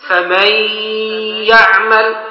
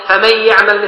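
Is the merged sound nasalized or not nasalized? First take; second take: nasalized; not nasalized. First: The merged sound is said with nasalization. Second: The merged sound is said without nasalization. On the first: The speaker calls it right. "ابقي الصفة" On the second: The speaker calls it wrong. "لا هذا مش إدغام ... أذهبت الحرف الصفة"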